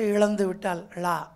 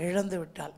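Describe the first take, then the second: First: An extra 'la' syllable is added at the end. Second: The phrase ends cleanly with no added syllable. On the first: The speaker calls it wrong. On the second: The speaker calls it right.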